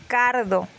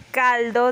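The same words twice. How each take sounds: First: "cardo" instead of caldo, l turned to r; rhotacism. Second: Said in the usual way. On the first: Shown as a demonstration. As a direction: say "cardo" with an r in place of the l, slowly. ("cardo" con r en vez de l) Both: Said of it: "En vez de decir caldo".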